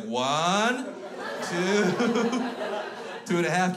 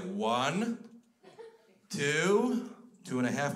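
First: Put-on loud, high child countdown; mimicked kid counting down, pitched up; defiant four-year-old. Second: Put-on godfather counting at a misbehaving kid; stern adult countdown with long gaps; warning countdown. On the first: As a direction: threaten like a tiny tough guy. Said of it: "this little four-year-old son of a bitch". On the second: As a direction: count slowly as a warning, in your own voice. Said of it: "And I was like".

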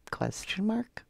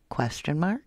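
First: Breathy whispered question. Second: Said in the usual way. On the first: Shown as a demonstration. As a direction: whisper it back, puzzled. Repeated as a whisper.

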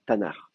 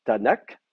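First: "Tanar" ending in a throaty r sound, not a k; "Tanar", final kaf spoken as r; Tanakh with a guttural final r. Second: "Tanakh" with the vowels added and a hard final k; "Tanakh" spoken as a demo, final k hard. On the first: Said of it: "on le prononce re". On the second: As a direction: say "Tanakh", ending on a clear k. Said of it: "on va mettre des petites voyelles entre les deux". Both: Shown as a demonstration.

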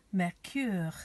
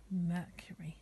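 First: "Mercure" said the French way, mair-KÜR; French pronunciation. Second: Said in the usual way. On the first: Shown as a demonstration. Teacher giving children the French for Mercury, "Mercure" pronounced mair-KÜR. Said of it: "names of the planets in French". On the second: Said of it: "the word for Mercury".

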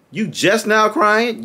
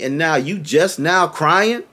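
First: Higher, slow sarcastic repeat; mocking disbelief. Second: Slow, disbelieving question; slow incredulous question to the quarterback. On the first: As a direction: throw it back at him with scorn. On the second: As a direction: ask it like you can't believe it. Fan scolds quarterback for crying. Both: Real, not acted.

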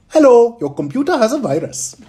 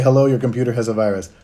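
First: High, loud put-on scam caller; hammed-up phone scammer, high and loud; scammer voice for Sunil. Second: Said in the usual way. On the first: Streamer does Sunil's voice as a phone scammer. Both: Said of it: "Sunil, can you say".

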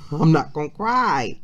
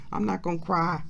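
First: Louder, laughing it off while choked up; laughing through tears. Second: Said in the usual way. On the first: Real, not acted. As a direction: laugh to hold back the tears. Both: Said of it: "don't start crying, [name]".

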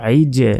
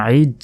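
First: আইজে with the final j pushed out into an echo; qalqalah bounce. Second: আইজ cut off on the final j, no bounce; wrong, without qalqalah. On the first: Teacher shows students qalqalah, আইজে bouncing off the j. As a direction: release the j of আইজে with a small bounce. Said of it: "শেষে একটা ধাক্কা হচ্ছে". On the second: Teacher shows students the mistake, আইজ with no echo after j. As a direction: say আইজ with a closed, unreleased ending. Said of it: "না বলে বলতে হবে". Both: Shown as a demonstration.

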